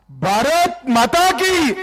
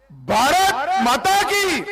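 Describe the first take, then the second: First: Drawn-out rally call, loud and high; rally speech. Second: Even louder, much higher rally call; rally speech. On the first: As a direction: lead the crowd chant slowly. Leader calls crowd to chant. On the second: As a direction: rouse the crowd, slow and stretched. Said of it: "जरा जोर से दोनों हाथ उठाकर बोलिए". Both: Real, not acted.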